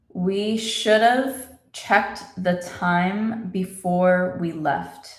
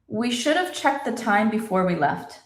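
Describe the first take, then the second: First: The sentence is spoken slowly and carefully. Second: The sentence is spoken at normal, faster speed.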